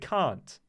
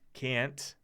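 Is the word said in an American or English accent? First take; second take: English; American. First: It is said in an English accent. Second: It is said in an American accent. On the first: "I say can't, right? That's English" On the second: "which is the American, in my mind, the way Americans say it"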